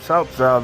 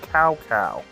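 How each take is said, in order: First: The name starts with a ts-like sound. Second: The name starts with a k sound. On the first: The speaker calls it right. "instead of calling him South South" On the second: The speaker calls it wrong. "they were calling him Cow Cow"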